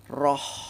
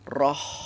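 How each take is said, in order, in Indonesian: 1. Bunyi h di akhir mengalir keluar dengan hembusan napas yang terdengar. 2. Bunyi h di akhir mengalir keluar dengan hembusan napas yang terdengar.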